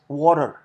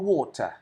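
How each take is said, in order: First: It is said in an American accent. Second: It is said in a British accent. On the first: "as Americans do" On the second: "as the British do"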